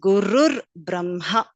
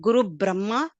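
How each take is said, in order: First: Guru is said with an added r sound. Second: Guru is said without an added r sound. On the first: The speaker calls it right. "but it is Gurur Brahma" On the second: The speaker calls it wrong. "it is not Guru Brahma"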